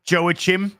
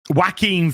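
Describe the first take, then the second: First: The name is said the way he said it years ago. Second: The name is said the way he says it now.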